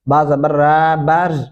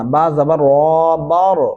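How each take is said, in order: First: The r sound is thin and light. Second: The r sound is thick and heavy. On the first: The speaker calls it wrong. "ऐसे नहीं करना" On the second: The speaker calls it right. "यहाँ पे रॉ मोटा पड़ा जाएगा"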